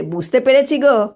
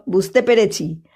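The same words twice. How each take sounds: First: বুঝতে পেরেছি গো with পেরেছি lifted and pressed; knowing tease, hit পেরেছি; teasing emphasis. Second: Said in the usual way. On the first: A narrator's reading. Priest teasing the headman's wife, stressing পেরেছি. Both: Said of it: "ঘাড় ঝাঁকিয়ে বলে".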